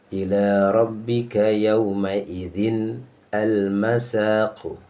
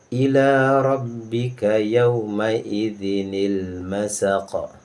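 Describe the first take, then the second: First: No linking 'ni' sound is added after idzin. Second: A linking 'ni' sound joins idzin to masaq.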